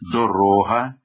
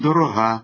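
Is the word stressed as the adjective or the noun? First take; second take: noun; adjective. First: It carries the noun's stress placement. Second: It carries the adjective's stress placement. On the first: It names a thing. "іменник" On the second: It describes a quality. "прикметник"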